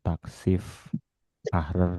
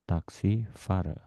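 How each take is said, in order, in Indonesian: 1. Kata ini dipenggal setelah Taxif. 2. Kata ini dipenggal setelah Taxi.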